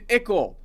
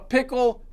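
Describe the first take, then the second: First: The word starts without any p sound. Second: The word starts with a clear p sound.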